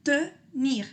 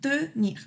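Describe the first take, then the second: First: Tenir with a rounded first vowel; tenir, the e said with lips rounded; French tenir. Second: Tenir with a rounded first vowel, a little higher; Tenir, the e said with lips rounded; French tenir. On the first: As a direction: tenir con e redondeada. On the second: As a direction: Tenir con e redondeada. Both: Shown as a demonstration. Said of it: "Entonces hago E".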